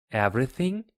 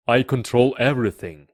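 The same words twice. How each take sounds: First: Higher, rising echo question; questioning little prince. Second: Loud, quick royal declaration; boastful king. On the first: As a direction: query it like a curious child. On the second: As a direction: assert total power, raised voice. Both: A narrator's reading.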